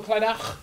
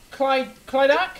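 First: Clydach ending in throaty ch; Welsh pronunciation. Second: Clydach with hard k and no final sound; guessed pronunciation. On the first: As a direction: Clydach with Welsh guttural ch at end. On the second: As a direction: Clydach said unsure, hard c ending dropped. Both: Shown as a demonstration. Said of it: "Is that how you pronounce it?".

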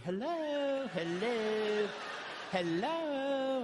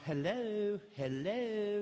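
First: High, very perky singsong hello; real perky. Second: Lightly perky wife answering; mildly bright phone greeting, higher; perky hello. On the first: Wife answering a stranger's call, hammed-up perky. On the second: Wife answering unknown caller, lightly perky. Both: Retold or imitated. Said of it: "you're real perky".

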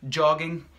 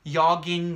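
First: "jogging" with a crisp English J; hard J. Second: "yogging" with the J said as Y; soft J. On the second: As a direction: open "yogging" on a Y glide. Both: Shown as a demonstration. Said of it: "the hard J or the soft J".

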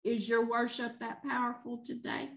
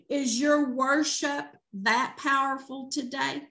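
First: Quiet challenge. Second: Said in the usual way. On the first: Real, not acted. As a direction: drop to a soft, hushed question.

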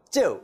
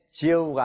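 First: "쯔" opening on a doubled Korean consonant; tense initial consonant. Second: "지읒가" with a lax Korean ㅈ at the start; the rejected lax-consonant take of "지읒가"; plain initial consonant. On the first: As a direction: say "쯔" with a hard, tensed ㅉ. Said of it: "발음하죠". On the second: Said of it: "지읒가 아니고 쯔 이렇게". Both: Shown as a demonstration.

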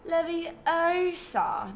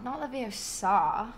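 First: Leviosa with a high, very long O; stress on O. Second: Leviosa with a drawn-out final SA; stress on SA. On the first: Streamer imitating Hermione's correction, Leviosa stressed on a high O. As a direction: raise and stretch the O in Leviosa. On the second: Streamer mimicking the wrong way, Leviosa stressed on the SA. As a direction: put the weight on the end of Leviosa. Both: Shown as a demonstration.

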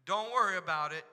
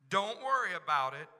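The two takes are said the same way.

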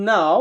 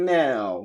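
First: British "now" starting on open AH; British accent. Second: American "now" starting on AE; American accent. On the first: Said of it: "ব্রিটিশরা আও বলে". (British উচ্চারণে) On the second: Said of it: "ওরা বলে". (American উচ্চারণে) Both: Shown as a demonstration.

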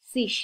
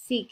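First: One accepted ending, said with s; ending sis. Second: সিগ ending in a hard g; the other accepted ending, with g; ending sig. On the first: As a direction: say সিস with a hissed final s. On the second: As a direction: close সিগ on a firm g stop. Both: Shown as a demonstration. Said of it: "সিগও বলা যায়, সিসও বলে".

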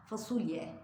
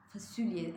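First: Said in the usual way. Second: "fasulye" with its u moved toward ü, "fasülye"; the everyday form, "fasülye"; near-ü pronunciation. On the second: Shown as a demonstration. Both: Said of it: "Ü'ye yakın".

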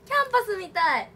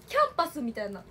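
First: キャンパスみたい said higher and louder, falling at the end; excited キャンパスみたい. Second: Said in the usual way. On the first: Real, not acted. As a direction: say キャンパスみたい with more delight.

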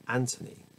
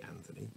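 First: "Anthony" with a hard t, AN-tuh-nee; alternative pronunciation. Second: "Anthony" with a soft th, quieter; AN-thuh-nee, th sounded in "Anthony"; alternative pronunciation. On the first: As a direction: say "Anthony" like Antony, no th. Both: Shown as a demonstration. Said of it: "which could be Anthony".

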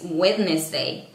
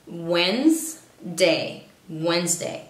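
First: "Wednesday" with D pronounced, wed-nes-day; as written, wrong. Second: "Wednesday" said slowly as wenz-day; silent first D. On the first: Teacher showing Latinos' mistake, "Wednesday" read as written. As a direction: sound out every letter of "Wednesday". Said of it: "no es Wednesday". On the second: Teacher showing the correct way, "Wednesday" as wenz-day. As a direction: drop the first D in "Wednesday", Z in middle. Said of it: "Se pronuncia de esta manera". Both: Shown as a demonstration.

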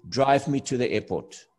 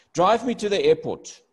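First: Said in the usual way. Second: Bossy command. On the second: Shown as a demonstration. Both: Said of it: "that is not a nice thing to say".

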